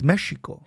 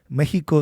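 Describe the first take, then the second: First: It is said with the original indigenous pronunciation. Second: It is said with the usual Spanish pronunciation. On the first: This is the original indigenous name. The speaker calls it right. "It's Mexico" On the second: This is the name as the Spanish said it. The speaker calls it wrong. "that's not the name of the country"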